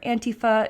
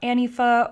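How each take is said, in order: First: The word is said carefully, every sound enunciated. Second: The word is said loosely, with sounds slurred.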